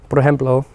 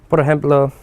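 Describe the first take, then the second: Both takes have the same delivery.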